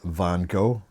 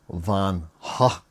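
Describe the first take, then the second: First: The name is said the American way. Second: The name is said the original way. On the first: "The Americans pronounce it" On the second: "apparently it's meant to be pronounced"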